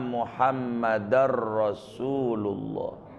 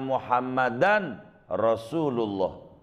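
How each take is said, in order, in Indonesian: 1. Bunyi n melebur menjadi bunyi r yang dobel. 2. Bunyi n yang jelas dipertahankan sebelum r.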